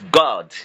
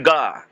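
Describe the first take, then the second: First: The final D sound is clearly pronounced. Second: The final D sound is left off. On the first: The speaker calls it right. "no, it's God" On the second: The speaker calls it wrong. "without even putting the D"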